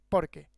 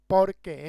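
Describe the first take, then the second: First: "porque" run together as one short word; one single word. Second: "por qué" loud and drawn out, as two words; two separate words. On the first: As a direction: join "por" and "que" tightly, falling at the end. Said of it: "Porque es una sola palabra". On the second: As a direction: punch "por" and hold "qué" apart from it. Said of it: "Porque es una sola palabra, no es". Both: Shown as a demonstration.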